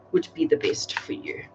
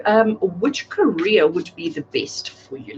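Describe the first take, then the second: First: Breathy mystical whisper of the question; hushed whisper, as if asking the deck. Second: Said in the usual way. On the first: Acted. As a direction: whisper it to the cards. Question repeated, then whispered.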